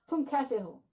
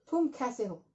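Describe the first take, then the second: Both takes have the same delivery.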